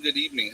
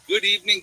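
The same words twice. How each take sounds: First: Said in the usual way. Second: Sing-song hello, pitched high and louder; bright greeting. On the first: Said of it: "third greeting, back to normal". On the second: Real, not acted. Streamer greeting his live chat, high and loud. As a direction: open the show like a host calling out. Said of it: "greets the stream, sing-song".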